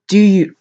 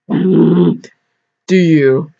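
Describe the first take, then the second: First: It is said in the reader's ordinary voice. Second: It is said in a put-on preacher voice.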